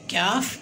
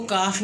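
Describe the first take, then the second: First: क्याफ said with a y-glide, kyaf, not plain kaf; correct kyaf. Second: काफ said as plain kaf, no y-glide after the k; the wrong way: काफ with a bare k and long a. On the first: Teacher showing the children the right क्याफ sound. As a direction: give क्याफ its glide: k, then y, then long a and f. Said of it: "ये क्याफ है". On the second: Teacher warning the children against saying plain काफ. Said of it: "आपने इसको काफ नहीं बोलना". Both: Shown as a demonstration.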